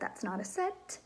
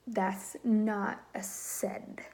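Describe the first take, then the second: First: The last word ends with a T sound. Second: The last word ends with a D sound. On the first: The speaker calls it right. "instead of a T" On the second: The speaker calls it wrong. "with um, a D instead of a T"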